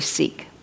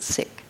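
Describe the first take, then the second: First: The word has the common outsider pronunciation. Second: The word has the community's own pronunciation. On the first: This is how outsiders usually say it. "We often say Sikh" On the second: This is how the community itself says it. "but they pronounce it Sikh"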